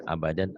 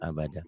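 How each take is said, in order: First: The word ends with an n sound. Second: The word ends on an open vowel. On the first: The reading continues past this word. "Abadan jika dihentikan abada" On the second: The reading stops at this word. "jika dihentikan abada"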